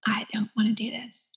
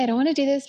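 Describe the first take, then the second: First: Whispered refusal. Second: Said in the usual way. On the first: Retold or imitated. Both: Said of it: "So angry".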